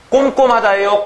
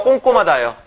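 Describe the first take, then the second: First: "꼼꼼하다예요" with m closing the first 꼼; standard pronunciation. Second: "꼼꼼하다예요" said 꽁꼼, first m turned to ng; colloquial pronunciation. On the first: Teacher asking class which form they use, standard pronunciation. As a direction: close the lips on the first syllable of "꼼꼼하다예요". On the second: Teacher offering the everyday form, colloquial pronunciation. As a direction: turn the first syllable of "꼼꼼하다예요" into kkong. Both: Shown as a demonstration. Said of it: "여러분들 발음 어떻게 해요?".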